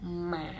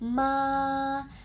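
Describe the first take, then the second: First: The pitch dips down, then rises slightly. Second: The pitch stays level and high. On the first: "nada tiga itu turun dulu. Turun naik" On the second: "nada satu mendatar gampang seperti paduan suara"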